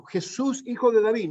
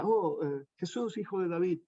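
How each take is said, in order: First: Higher, crying out in great need; a blind beggar shouting for help; desperate cry. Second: Quiet, casual calling of the name; just saying it. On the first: Retold or imitated. Blind beggar crying out to Jesus, desperate. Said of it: "lo gritaba de tal manera". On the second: Shown as a demonstration. Preacher showing the cry without desperation, quietly. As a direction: say it without urgency. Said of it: "No, no era tan solo que decía".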